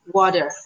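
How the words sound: The middle consonant is a soft d-like tap. This is the American way to say it. "but Americans say water"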